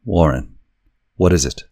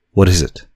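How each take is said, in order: First: Urgent, frightened question; terrified. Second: Higher, louder frightened repeat; terrified, louder. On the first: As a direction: ask in growing terror. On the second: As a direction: push the question out in panic. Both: A narrator's reading.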